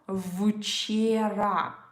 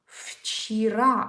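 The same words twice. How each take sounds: First: The word begins with a voiced v sound. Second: The word begins with a voiceless f sound. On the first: The speaker calls it wrong. "So it's not вчера" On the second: The speaker calls it right. "So it sounds like f"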